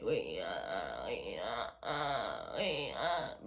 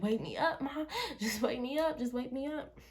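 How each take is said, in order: First: Low, breathy whisper of "wake me up"; barely voiced, pleading under the breath; whispered plea. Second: Higher, giggling "wake me up, Mom"; laughing plea. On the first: Reenacting her sleep-paralysis plea to mom, whispered. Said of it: "So this is me, like". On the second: Retold or imitated. Reenacting calling to mom while paralyzed, laughing and higher. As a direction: beg through laughter, pitch up. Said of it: "But I'm like".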